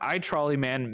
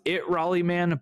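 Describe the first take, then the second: First: The name is split as 'I Trolley Man'. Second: The name is split as 'It Raleigh Man'. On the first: The speaker calls it right. "but I Trolley Man makes more sense" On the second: The speaker calls it wrong. "I thought it was It Raleigh Man"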